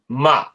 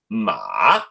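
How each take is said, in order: First: The pitch simply drops. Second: The pitch both rises and falls. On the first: "the second tone where it just drops" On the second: "the rising and falling tone, which is the third tone"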